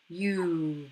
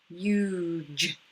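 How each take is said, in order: First: The g is a hard sound. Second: The g sounds like j. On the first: The speaker calls it wrong. "Hugh isn't really a word" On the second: The speaker calls it right. "G sometimes steals that J sound"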